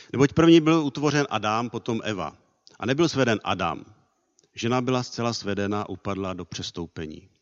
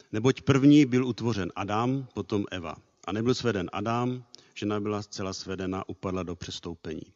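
The two takes are said the same way.

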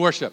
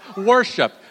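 First: It is said in a neutral American accent. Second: It is said in a Southern US accent.

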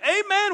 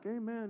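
First: It is said in an eager, joyful way. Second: It is said in a weary, relieved way. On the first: The listener is glad to hear the reading. The speaker calls it right. "It was, amen, we're reading God's word. Praise Jesus" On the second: The listener is glad the talk is nearly over. The speaker calls it wrong. "it wasn't like, amen, he's down to the third or fourth point. We're almost done"

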